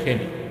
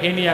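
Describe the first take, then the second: First: The word begins with an F sound. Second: The word begins with an H sound. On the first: This is how locals say it now. "এখন বলে ফেনি।" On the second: This is how locals used to say it. "ফেনীর মানুষ আগে বলতো হেনি"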